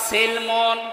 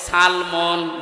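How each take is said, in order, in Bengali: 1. প্রথম স্বরধ্বনিটি 'i' উচ্চারণ। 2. প্রথম স্বরধ্বনিটি 'a' উচ্চারণ। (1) "সিনের নিচে জের দিয়ে পড়লে বাংলা অর্থ হবে ইসলাম" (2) "সিনের ওপরে কেউ যদি জবর দিয়ে পড়ে"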